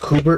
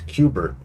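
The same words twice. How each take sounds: First: The name begins with a plain 'koo' sound. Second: The name begins with a 'kyoo' sound. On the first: This is how the name is said now. The speaker calls it right. "Did you know it's Kubert now?" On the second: This is how the name was long assumed to sound. The speaker calls it wrong. "like the video game"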